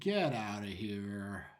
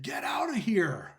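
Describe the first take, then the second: First: The voice sounds calm, without alarm. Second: The voice sounds alarmed and urgent. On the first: "That's one uh, tone that these four words could have" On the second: "It's a completely different tone"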